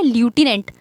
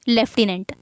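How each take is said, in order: First: The first syllable sounds like 'loo'. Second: The first syllable sounds like 'lef'. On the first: "America इसको pronounce करता है ल्यूटिनेंट" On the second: "England इसको pronunciation करता है लेफ्टिनेंट"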